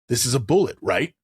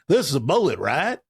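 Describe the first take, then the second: First: It is said in the speaker's ordinary accent. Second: It is said in a friendly Southern US accent.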